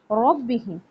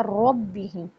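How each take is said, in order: First: रब्बिहिम with a full, heavy र; teacher reading it right. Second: रब्बिहिम with a full, heavy र. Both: Shown as a demonstration. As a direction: thicken the र in रब्बिहिम. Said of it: "रा पुर पढ़ा जाता है".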